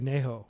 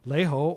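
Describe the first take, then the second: First: It begins with a nasal N sound. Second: It begins with an L sound, not nasal. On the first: It is the more precise, easier to understand way. The speaker calls it right. "people in Guangzhou will say Neho" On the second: It is the lazier, collapsed way of speaking. The speaker calls it wrong. "they don't pronounce the nasal N"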